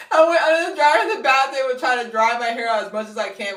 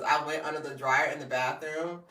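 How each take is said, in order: First: High, loud, comically worked-up; animated, panicked-sounding storytelling; frantic retelling. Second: Said in the usual way. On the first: Retold or imitated. Reliving drying wet hair in the bathroom, frantic.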